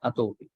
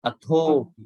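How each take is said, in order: First: The consonant is said without a breath of air. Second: The consonant is said with a puff of air. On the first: The speaker calls it wrong. "not atopi" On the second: The speaker calls it right. "these have to be pronounced with a sort of a, an aspirate"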